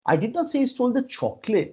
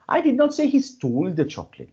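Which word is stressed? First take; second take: chocolate; stole. First: The stress is on "chocolate". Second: The stress is on "stole".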